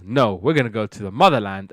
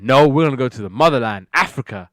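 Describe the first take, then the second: First: Said in the usual way. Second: Louder, quicker retort, hitting "motherland"; insistent. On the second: Retold or imitated. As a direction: insist firmly, punching "motherland" with more volume. Father insists to disappointed kids.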